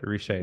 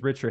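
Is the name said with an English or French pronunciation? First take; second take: French; English. First: The name is said with a French pronunciation. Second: The name is said with an English pronunciation. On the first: This is the form used for the family name. "Can I say it in French?" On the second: This is the form used for the company name. "it's Richer Health for all our companies"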